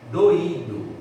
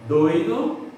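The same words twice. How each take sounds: First: Doído with stress on the í, do-Í-do. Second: Doido com ditongo oi, tônica em DOI; doido, no stress on i. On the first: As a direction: split doído into three syllables, stress Í. (doído, tônica no Í) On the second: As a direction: say doido as one gliding oi. (doido, sílaba tônica DOI) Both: Shown as a demonstration. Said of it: "a diferença da pronúncia".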